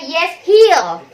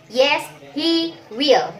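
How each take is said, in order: First: "he'll" run together as one syllable; contracted HE'LL. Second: "he will" as two separate full words; uncontracted HE WILL. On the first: Teacher showing the forbidden short answer, contracted "he'll". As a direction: say "he'll" as one loud, merged word. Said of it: "Jadi nggak boleh". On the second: Teacher modelling the required short answer, full "he will". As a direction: keep "he" and "will" apart, nothing merged. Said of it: "Jadi harus". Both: Shown as a demonstration.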